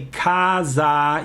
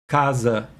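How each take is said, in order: First: The final vowel is a full, open ah. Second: The final vowel is reduced, close to schwa. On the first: The speaker calls it wrong. "you don't say casa" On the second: The speaker calls it right. "you say casa"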